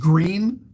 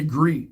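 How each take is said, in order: First: The final sound of the word is clearly pronounced. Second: The final sound of the word is dropped. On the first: The speaker calls it right. "the word is green" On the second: The speaker calls it wrong. "I don't articulate the last letter of a word"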